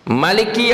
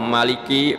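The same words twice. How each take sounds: First: The first vowel is said short and quick. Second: The first vowel is drawn out long. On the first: "baca cepat begitu juga bisa" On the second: "mimnya panjangin"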